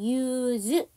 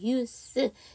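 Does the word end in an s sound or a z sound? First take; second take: z sound; s sound. First: The word ends with a buzzing z sound. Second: The word ends with a hissing s sound. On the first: It is the verb meaning to use. "사용하다 동사는 use" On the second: It is the noun meaning use. "사용하면 use"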